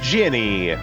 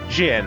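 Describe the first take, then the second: First: The word is said with two syllables. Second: The word is said with one syllable. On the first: The speaker calls it wrong. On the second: The speaker calls it right.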